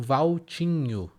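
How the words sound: The full diminutive ending is pronounced. "Popularmente no diminutivo Valtinho"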